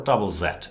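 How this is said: The letter Z is said the English way, 'zed'.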